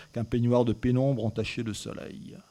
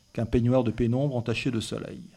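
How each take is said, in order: Both takes have the same delivery.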